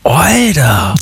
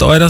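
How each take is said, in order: First: It sounds impressed. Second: It sounds surprised.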